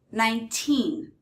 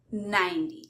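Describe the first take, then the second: First: Put-on "nineteen" with long, stressed "teen". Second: "ninety" stressed on "nine", weak "ty". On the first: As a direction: lean on the end of "nineteen". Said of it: "the stress is on the teen". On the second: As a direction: punch the start of "ninety". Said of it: "stress is on the first syllable". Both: Shown as a demonstration.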